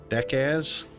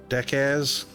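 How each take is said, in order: Both takes have the same delivery.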